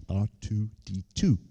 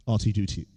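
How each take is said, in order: First: "R two D two" said in separated pieces; careful repetition. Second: Said in the usual way. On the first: Real, not acted. Name said over, carefully separated.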